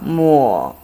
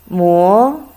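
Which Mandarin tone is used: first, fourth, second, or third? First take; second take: third; second. First: It is said with the third tone. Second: It is said with the second tone. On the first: It means wipe. "Third tongue" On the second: It means to grind. "Then you go second tongue"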